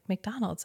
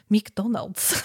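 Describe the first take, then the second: First: It is said in a plain American accent. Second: It is said in an exaggerated mock Spanish accent. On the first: "I kept just saying McDonald's" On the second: "I had to say it like the stupid American version of a Spanish accent"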